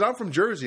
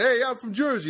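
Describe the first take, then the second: First: Said in the usual way. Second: Put-on high, punchy Jersey accent. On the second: Comedian playing a local defending how Jersey talks, exaggerated Jersey accent. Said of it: "Do they talk like that".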